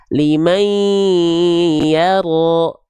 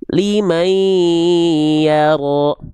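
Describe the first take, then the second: Both takes have the same delivery.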